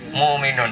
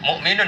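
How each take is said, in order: First: The glottal stop is dropped, with a long vowel. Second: A glottal stop is pronounced in the middle.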